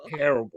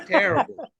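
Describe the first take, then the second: First: Said in the usual way. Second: Higher and louder exasperated TERRIBLE; mock disgust. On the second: Real, not acted. Reacting to the meme, higher, louder disgust. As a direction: groan it like a scandalised viewer.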